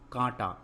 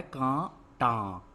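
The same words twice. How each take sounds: First: Said in the usual way. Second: कांटा very slow, in two separate syllables; कांटा drawn out with a gap in the middle. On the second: Shown as a demonstration. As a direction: sound out कांटा in two held pieces. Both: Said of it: "क्या है".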